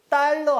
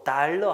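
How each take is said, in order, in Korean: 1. 첫 자음은 된소리예요. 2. 첫 자음은 예사소리예요. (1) "하시면 안 되고" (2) "하셔야 됩니다"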